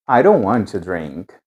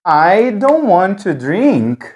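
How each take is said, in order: First: Don't said softly with a flapped D, like ai ro want to drink. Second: Said in the usual way. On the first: Shown as a demonstration. Teacher contrasting the relaxed flapped D with the careful version. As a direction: say don't with a quick tap, ro, not a full D. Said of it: "pronunciado como um rareriroru". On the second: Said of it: "a gente pode falar assim".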